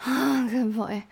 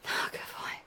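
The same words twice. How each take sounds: First: Louder voiced praise, full tone; voiced aloud. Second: Breathless whispered praise. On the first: Praises her partner after climax, voiced louder. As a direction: say it out loud with full voice. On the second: Acted. Praises her partner after climax, whispered. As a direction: drop to a bare whisper.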